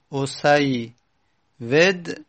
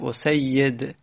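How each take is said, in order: First: A w sound comes before the final d. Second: A y sound comes before the final d. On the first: "هم میشه وو رو باقی گذاشت" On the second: "هم بیا تبدیل کرد"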